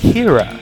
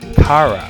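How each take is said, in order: First: The first vowel sounds like the vowel in 'keep'. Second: The first vowel sounds like the vowel in 'car'. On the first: "he says Kira. Very kind of, you know, semi-Pittsburghy Western Pennsylvania accent" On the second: "I would say"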